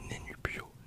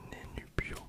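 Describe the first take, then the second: No difference in how they are said.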